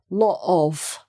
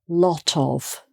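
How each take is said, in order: First: The T is dropped, leaving a break. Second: The T is pronounced and linked to the vowel. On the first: The speaker calls it wrong. "with the T missing" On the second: The speaker calls it right. "run the two words together"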